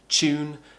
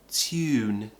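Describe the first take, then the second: First: It begins with a 'ch' sound. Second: It begins with a 't' plus 'y' sound. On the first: It sounds modern and everyday. "the most common way is a ch sound" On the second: It sounds old-fashioned and posh. "the old-fashioned British way... a t, a y, and an oo, tew"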